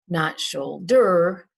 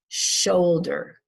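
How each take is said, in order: First: The stress is on the second syllable. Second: The stress is on the first syllable. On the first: The speaker calls it wrong. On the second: The speaker calls it right. "we stress the first syllable"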